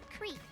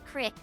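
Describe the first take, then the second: First: The word is said the standard way, like creek. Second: The word is said the local way, like crick. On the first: This is the standard pronunciation. "I wanted to be correct for you guys, so I called it creek" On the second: This is the local everyday pronunciation. "that's how we just pronounce it around here"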